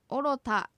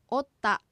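First: The word is said with full syllables oro ta. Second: The word is contracted with a doubled t sound. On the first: "おろたがおったと発音される" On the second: "おったと発音される"

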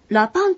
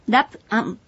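First: The vowels merge into a contracted ra-pan. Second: Each syllable is said separately, as ra-pu-an.

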